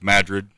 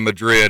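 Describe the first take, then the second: First: The stress is on the first syllable. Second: The stress is on the second syllable. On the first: This is how locals say the place name. "it's Madrid" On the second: This is how the Spanish city is said. "instead of Madrid"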